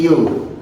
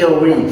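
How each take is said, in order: First: Yo as one gliding syllable, "yoo"; corrected pronunciation. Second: Airway as two syllables, "eh-weh"; wrong pronunciation. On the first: Teacher repeats the model for students, yo as "yoo". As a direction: say yo like the word "you", falling. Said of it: "Moi, je dis yo". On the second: Teacher repeats the misreading for students, airway as "eh-weh". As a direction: read airway as spelt, "eh-weh". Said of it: "Moi, je dis airway". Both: Shown as a demonstration.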